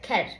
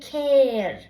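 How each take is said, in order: First: The vowel is cut short. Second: The vowel is held long. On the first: The speaker calls it wrong. "not care" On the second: The speaker calls it right. "a is long, so you say care"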